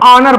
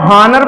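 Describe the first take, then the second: First: The word starts with a vowel, h silent. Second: The word starts with an audible h sound. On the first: The speaker calls it right. "एच silent रहता है" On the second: The speaker calls it wrong. "क्या हम इसको हॉनर पढ़ते हैं"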